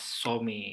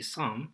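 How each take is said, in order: First: The word is said with a Dutch pronunciation. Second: The word is said with a British pronunciation. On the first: "In Dutch, you I guess you will pronounce it as some" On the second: "in British they will say some"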